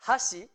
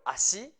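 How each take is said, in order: First: HASHI with an audible h before the a; H pronounced. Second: ASHI begun on a bare vowel; H left silent. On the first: Teacher contrasting chopsticks with foot, h pronounced. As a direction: open HASHI on a clear breath of h. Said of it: "es muy importante pronunciar la H". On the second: Teacher contrasting foot with chopsticks, silent h. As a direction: say ASHI without any h, rising at the end. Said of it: "Si no pronunciamos la H". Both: Shown as a demonstration.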